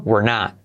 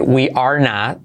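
First: "we're" squeezed into one short syllable, like "wer"; more contracted. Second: "we are not" as three full words; uncontracted. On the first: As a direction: merge "we're" tightly and quickly into "not". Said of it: "más contraído". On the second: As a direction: give "are" its own full syllable. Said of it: "pero más contraído". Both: Shown as a demonstration.

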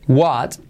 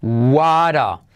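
First: "What" alone, ending on a T; isolated word. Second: "What a" linked as WA-ra; soft R linking. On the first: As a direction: close "What" with its T before a pause. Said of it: "La T de what". ("What" suelto, con T final) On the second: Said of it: "se convierte en R suave". ("What a" con la T como R suave) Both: Shown as a demonstration.

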